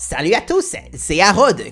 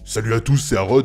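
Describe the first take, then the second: First: The voice is higher. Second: The voice is deeper.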